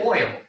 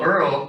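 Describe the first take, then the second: First: The word sounds like 'oil'. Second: The word sounds like 'earl'. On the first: "But some people say oil" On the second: "people will say things in the South much differently"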